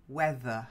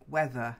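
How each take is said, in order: No difference in how they are said.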